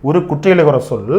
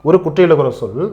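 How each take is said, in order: No difference in how they are said.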